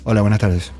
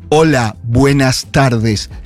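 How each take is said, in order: First: It is said loosely and naturally, words running together. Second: It is said carefully and stiffly, word by word.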